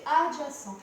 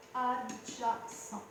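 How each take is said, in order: First: Said in the usual way. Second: "Adjacent" very slow, in separate syllables. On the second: Shown as a demonstration. Teacher writing the side's name, slow syllable by syllable. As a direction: stretch out "Adjacent" as if dictating. Repeats term while writing it.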